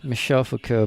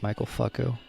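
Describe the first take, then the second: First: The name is given a French pronunciation. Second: The name is given an English pronunciation. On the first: The speaker calls it right. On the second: The speaker calls it wrong.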